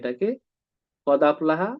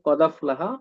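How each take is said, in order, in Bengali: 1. হামজা (glottal stop) দুটি শব্দকে আলাদা করে। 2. হামজা ছাড়াই দুটি শব্দ একসাথে মিশে যায়।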